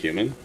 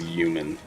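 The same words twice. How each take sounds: First: The word starts with a clear h sound. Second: The word starts without any h sound. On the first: This is how the speaker says it. "I feel like I say human like human" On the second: This is how someone else says it. "She doesn't pronounce the H, it's always human"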